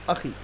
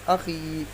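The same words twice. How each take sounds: First: The final vowel is short and quick. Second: The final vowel is drawn out long. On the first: "जल्दी पढ़ेंगे" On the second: "खींच कर पढ़ेंगे"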